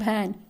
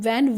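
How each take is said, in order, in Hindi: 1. शब्द की शुरुआत BH ध्वनि से होती है। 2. शब्द की शुरुआत V ध्वनि से होती है। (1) "कुछ लोग भैन बोलते हैं" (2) "मैं वैन बोलूंगी तो वैन वी है ना"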